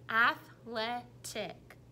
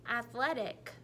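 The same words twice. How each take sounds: First: Athletic slowly split into ath, le, tic; chopped into syllables. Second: Said in the usual way. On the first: Shown as a demonstration. Teacher showing the kids the syllable chops. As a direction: chop athletic into three slow beats. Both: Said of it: "supposed to be making the choppers".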